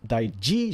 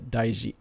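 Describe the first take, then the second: First: The J sound is hard and sharp. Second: The J sound is soft and smooth. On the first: The speaker calls it wrong. "じゃなくて" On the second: The speaker calls it right. "it's kind of like a a smooth J"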